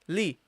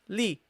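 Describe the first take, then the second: First: The syllable is pronounced light and gentle. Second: The syllable is pronounced light and gentle.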